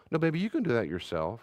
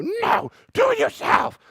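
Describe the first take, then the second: First: Calm, kind and reassuring; tender "you can do that yourself"; gentle parent. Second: Much higher, louder, slow caricature of a dismissive parent; mock the cold parent who won't help; hammed-up snappy refusal; harsh parent. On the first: Retold or imitated. Gracious parent answers child. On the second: Parent refuses child's request.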